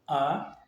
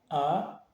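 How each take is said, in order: Both takes have the same delivery.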